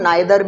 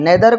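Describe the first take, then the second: First: The first vowel sounds like 'eye'. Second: The first vowel sounds like 'ee'. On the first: "नाइदर भी पढ़ते हैं" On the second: "नेदर को हम"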